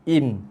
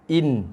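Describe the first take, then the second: Both takes have the same delivery.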